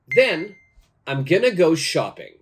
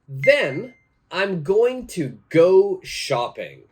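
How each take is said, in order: First: "Going to" is blended into one short word. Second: "Going to" is said as two full words. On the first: "now let's change the pronunciation" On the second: "My sentence for this is"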